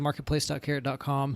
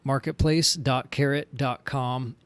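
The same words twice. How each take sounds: First: It is said at a quick, normal pace. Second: It is said slowly and deliberately.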